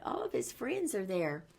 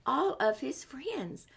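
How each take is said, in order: First: Said in the usual way. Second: Slow hushed whisper. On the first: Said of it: "said aloud after whisper". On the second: Shown as a demonstration. Reading to children, slowly whispering about the friends. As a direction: breathe it out slowly. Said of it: "whispered while reading".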